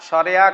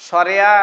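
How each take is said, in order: Both takes have the same delivery.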